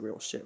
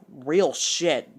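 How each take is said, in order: First: Said in the usual way. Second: Loud, drawn-out, raised-pitch outburst; loud exclamation. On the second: Retold or imitated. Reacting to what she just said, loud exclamation. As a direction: blurt it out much louder.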